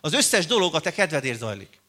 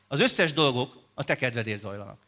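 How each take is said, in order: First: It is read at a moderately slow pace. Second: It is read at a very slow pace. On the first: "lassabban mondom" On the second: "Még egyszer, még lassabban"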